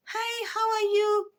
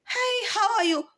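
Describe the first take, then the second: First: Much higher, slow and soft, sugary; soft, sweet, high greeting, drawn out. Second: Put-on much higher, airy and girlish greeting; very high girlish Chinese woman's greeting; womanized Chinese voice. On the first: Retold or imitated. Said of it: "more soft, more sweet". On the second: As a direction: chirp it like a sweet rich lady. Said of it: "Very womanized Chinese".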